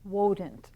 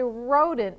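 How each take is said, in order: First: The word begins with a W sound. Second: The word begins with an R sound. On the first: The speaker calls it wrong. "so he said wodent" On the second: The speaker calls it right. "he couldn't say rodent with an R"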